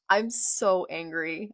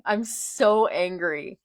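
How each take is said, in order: First: Annoyed groan. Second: "so" stretched and falling, slower and louder; exasperated slow whine. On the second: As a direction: drag "I'm so angry" out in exasperation. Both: Real, not acted.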